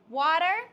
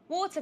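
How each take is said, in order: First: It is said in a put-on American accent. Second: It is said in her usual non-American accent.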